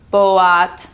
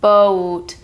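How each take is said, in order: First: The vowel is split into two sounds. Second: The vowel is a single long O. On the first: The speaker calls it wrong. "It's not boat, because that's how it's spelled" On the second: The speaker calls it right. "It's like a long O"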